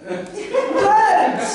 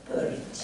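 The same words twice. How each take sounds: First: Purge! called out high and bright; loud announcement. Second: Whispered, secretive brand name. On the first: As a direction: proclaim Purge like an advert slogan. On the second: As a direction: breathe the word Purge. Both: Acted.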